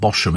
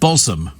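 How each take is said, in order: First: The middle sound is a 'sh' sound. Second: The middle sound is a 'z' sound. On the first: "I want to pronounce it Bosham. It sounds so much nicer" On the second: "pronounced Bosom"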